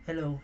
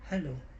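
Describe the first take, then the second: First: The voice sounds dry, with no echo. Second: The voice has an added echo effect.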